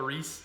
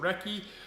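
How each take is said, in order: First: The word is said as one syllable, 'reese'. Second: The word is said as two syllables, 'recky'. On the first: The speaker calls it wrong. "not the Reese. I pronounce it the Reese" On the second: The speaker calls it right. "but it's the Recce"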